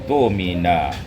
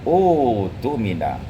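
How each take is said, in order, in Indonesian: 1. Ia menyambung kata sebelumnya dengan hentian glotal. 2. Ia dimulai sendiri dengan vokal panjang 'oo'. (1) "hamzah yang pertama yaitu hamzah wasal, tidak dibaca, sedangkan hamzah kedua dibaca ketika dia diwasalkan" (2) "hamzah wasal itu dibaca dengan dhammah, ditukar hamzah qata' itu dengan waw"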